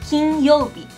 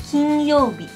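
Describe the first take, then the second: The two takes are said the same way.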